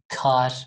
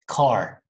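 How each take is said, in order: First: The final r sounds Turkish, not American. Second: The final r is a soft American r. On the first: The speaker calls it wrong. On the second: The speaker calls it right.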